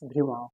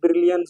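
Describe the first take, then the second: First: The name is said with its French pronunciation. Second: The name sounds like the English word brilliant. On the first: "the actual pronunci- pronunciation is Brillouin" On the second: "in India we say Brilliant zone"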